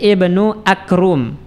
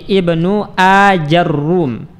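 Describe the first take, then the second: First: A k replaces the j, and no vowel follows it. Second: An 'a' follows the j, and the r is doubled. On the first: "jimnya kita ganti dengan huruf kaf" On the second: "jimnya kita fathah, ra-nya kita dhammah dan di tasydid"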